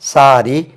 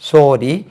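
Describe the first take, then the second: First: The first vowel sounds like an open 'ah'. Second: The first vowel sounds like a rounded 'oh'. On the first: This is how it is said in Tamil Nadu. "இதெல்லாம் தமிழ்நாட்டில் வந்து" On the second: This is how it is said in Kerala. "இது கேரளாவில்"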